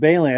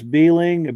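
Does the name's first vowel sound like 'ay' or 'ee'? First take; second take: ay; ee. First: The first vowel sounds like 'ay'. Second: The first vowel sounds like 'ee'. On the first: The speaker calls it right. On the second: The speaker calls it wrong.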